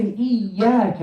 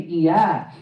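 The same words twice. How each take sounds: First: "Iyyaka" with a held, doubled y; correct shadda. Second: "Iyyak" with a short, single y; missing shadda. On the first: Teacher showing students the proper word, "Iyyaka" with doubled y. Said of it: "When we don't say". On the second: Teacher showing students the mistake, "Iyyak" without a held y. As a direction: skip the doubling in "Iyyak". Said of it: "and we say". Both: Shown as a demonstration.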